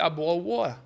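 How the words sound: It is said in a British English accent. "Se eu fosse falar no inglês britânico"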